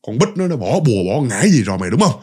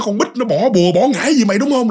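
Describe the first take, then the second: First: Said in the usual way. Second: Pitched well up, pointed mock accusation; higher accusing question. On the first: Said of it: "mày nói tao nghe coi". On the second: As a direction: ask it higher and sharper, pressing him. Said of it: "vừa nghe nó". (hỏi giọng cao hơn, gặng hỏi)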